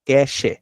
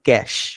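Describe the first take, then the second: First: The word ends with an extra 'ay' syllable. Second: The word ends right after the 'sh' sound. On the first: The speaker calls it wrong. "অনেকে ক্যাশে বলে" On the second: The speaker calls it right. "কিন্তু actually উচ্চারণ ক্যাশ"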